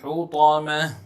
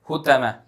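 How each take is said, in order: First: The t is heavy and full. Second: The t is light and thin. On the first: The speaker calls it right. "make sure to pronounce the ta correctly" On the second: The speaker calls it wrong. "It should not sound like a ta. ... That's wrong"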